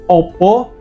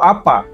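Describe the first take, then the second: First: Both vowels are 'o' sounds. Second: Both vowels are open 'a' sounds. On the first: "huruf A tadi biasa diubah menjadi O" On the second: "dia tetap mempertahankan bunyi A"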